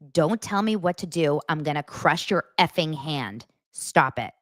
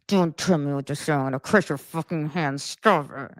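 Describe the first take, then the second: First: It is said normally with an open mouth. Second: It is muttered through nearly closed lips.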